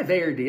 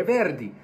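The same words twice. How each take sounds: First: "Verdi" with an American-style drawn first syllable; wrong pronunciation. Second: "Verdi" as VER-di, Italian tapped r; Italian pronunciation. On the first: Teacher shows the American error, mispronunciation. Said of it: "Não é". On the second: Teacher corrects the composer's name, Italian pronunciation. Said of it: "é". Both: Shown as a demonstration.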